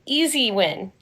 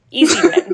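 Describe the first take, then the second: First: Said in the usual way. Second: Easy win, with win punched higher and louder; emphatic. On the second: Real, not acted. Calling the matchup for [name], emphatic win. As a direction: nail the word win with a lift. Repeating the verdict, building.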